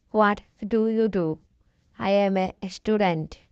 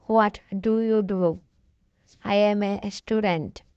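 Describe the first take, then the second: No difference in how they are said.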